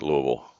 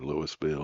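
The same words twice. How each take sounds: First: It is pronounced the local Kentucky way. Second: It is pronounced an outsider's way. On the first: This is how people from Kentucky say it. The speaker calls it right. "we say Louisville" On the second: This is how people not from Kentucky say it. The speaker calls it wrong. "not Louisville"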